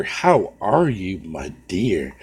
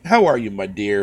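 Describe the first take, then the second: First: Slow drawn-out greeting. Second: Said in the usual way. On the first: Real, not acted. Streamer repeats greeting to Snow Bunny, slow and drawn out. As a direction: draw it out lazily, fading on dear.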